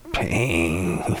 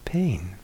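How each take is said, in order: First: The word sounds tense and resistant. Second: The word sounds soft and accepting. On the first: The speaker is caught up in aversion to the pain. The speaker calls it wrong. "I was caught" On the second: The speaker meets the pain openly without aversion. The speaker calls it right. "I could feel that difference"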